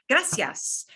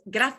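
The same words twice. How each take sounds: First: The 'c' is pronounced as an 's' sound. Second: The 'c' is pronounced as a 'th' sound. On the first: This is how Latin Americans say it. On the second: This is how people in Spain say it.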